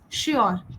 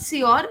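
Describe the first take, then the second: First: The word begins with an sh sound. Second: The word begins with a plain s sound. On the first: The speaker calls it right. "it's sure, right? It's a sure sound" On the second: The speaker calls it wrong. "it's not sure"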